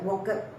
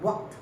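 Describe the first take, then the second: First: The ending is said as an extra syllable. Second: The ending is said as one single sound. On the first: The speaker calls it wrong. "Again I have heard walked" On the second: The speaker calls it right. "not walked but walked. One sound"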